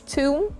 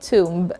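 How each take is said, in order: First: The b sound is silent. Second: The b sound is clearly pronounced. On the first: The speaker calls it right. "it's tomb and not tomb" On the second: The speaker calls it wrong. "and not"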